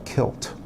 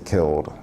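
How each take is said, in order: First: The word ends with a sharp t sound. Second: The word ends with a voiced d sound. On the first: The speaker calls it wrong. "words that are mispronounced" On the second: The speaker calls it right. "you should say killed instead of kilt"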